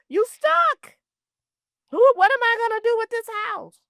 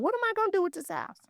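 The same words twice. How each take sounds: First: High, loud, panicked cry; an overwhelmed heir crying out over the house; panicked outcry. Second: Worried. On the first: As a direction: throw up your hands in despair and call it out. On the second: Voicing a worried heir. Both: Retold or imitated.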